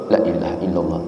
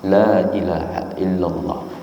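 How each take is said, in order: First: The vowel of the first word is cut short. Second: The vowel of the first word is drawn out long. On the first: There truly is a god besides God. The speaker calls it wrong. "ini tidak benar ya. Ini tidak tidak tepat karena lamnya harus panjang" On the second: There is no god but God. The speaker calls it right. "maka lamnya harus panjang"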